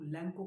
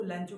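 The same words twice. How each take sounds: First: लैंको with a hard "k" sound; लैंको pronounced "LEN-ko"; K pronunciation. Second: लैंचो with a "ch" sound; लैंचो pronounced "LEN-cho"; CH pronunciation. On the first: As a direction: say लैंको, second syllable "ko". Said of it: "कुछ लोग लैंको कहते हैं". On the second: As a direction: say लैंचो, second syllable "cho". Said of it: "कुछ लोग इसको लैंचो कहते हैं". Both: Shown as a demonstration.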